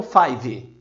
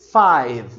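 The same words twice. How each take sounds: First: "five" with an added vowel, "faive"; wrong five. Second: "five" with a barely voiced final v; five, mute v. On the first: Teacher shows the wrong five with extra vowel. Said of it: "e não five". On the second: Teacher models correct five, mute v. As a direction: end "five" on a silent v. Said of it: "E diz". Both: Shown as a demonstration.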